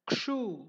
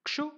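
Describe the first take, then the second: First: Kshu with a drawn-out long oo; long kshoo. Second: Kshu with a short, quick u. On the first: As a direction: stretch the oo of kshu. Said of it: "second one is longer". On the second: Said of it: "the first one is a shorter". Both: Shown as a demonstration.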